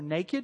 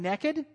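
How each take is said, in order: First: The word is said in a standard accent. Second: The word is said in a Southern accent. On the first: "as you guys would pronounce it" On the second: "I cannot say it any other way because I'm Southern"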